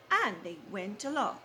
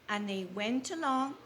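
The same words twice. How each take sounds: The two takes are said the same way.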